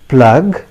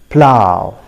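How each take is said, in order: First: The word ends with a g sound. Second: The word ends with an ow vowel. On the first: The speaker calls it wrong. "It's not at all acceptable" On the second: The speaker calls it right. "the correct pronunciation of this word is plow"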